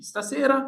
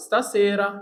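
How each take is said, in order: First: Stasera with the pitch rising high at the end. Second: Stasera said evenly, falling at the end; just say Stasera; Stasera said plainly. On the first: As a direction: lift Stasera into a question-like rise. (ستاسيرا بنغمة طالعة لفوق) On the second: (ستاسيرا بنطق عادي) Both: Shown as a demonstration.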